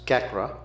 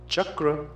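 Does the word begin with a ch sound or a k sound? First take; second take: k; ch. First: The word begins with a k sound. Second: The word begins with a ch sound. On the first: The speaker calls it wrong. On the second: The speaker calls it right.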